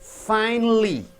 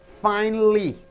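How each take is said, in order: Both takes have the same delivery.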